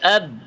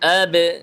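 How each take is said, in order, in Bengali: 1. শেষের b বন্ধ রাখা হয়, ছাড়া হয় না। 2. শেষের b ঝাঁকুনির প্রতিধ্বনি দিয়ে ছাড়া হয়। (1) "যদি আমরা এভাবে বলি আব, আওয়াজ জমে গেছে" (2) "এখন কলকলা করেন আবে"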